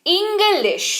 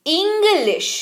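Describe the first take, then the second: First: English with a short i, lifted and stressed at the start; English, short i stressed high; stress on the first syllable. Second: English said with a short first i, stressed high; English with the weight on the opening short i; stress on the first syllable. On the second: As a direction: hit the start of English with a short i. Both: Shown as a demonstration. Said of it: "देखिए जोर पड़ रहा है".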